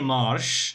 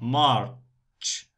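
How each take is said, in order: First: The word ends with a soft 'sh' sound. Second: The word ends with a sharp 'ch' sound. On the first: The speaker calls it wrong. "not say marsh, no" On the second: The speaker calls it right. "March, ch, t"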